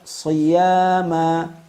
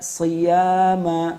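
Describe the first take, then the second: First: The first consonant is thick and heavy. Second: The first consonant is thin and light. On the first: The speaker calls it right. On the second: The speaker calls it wrong.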